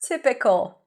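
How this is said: It is said in a light, playful tone. She finds the situation amusing. "as if it was playful or whimsical"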